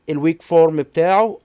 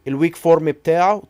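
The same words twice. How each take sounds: No difference in how they are said.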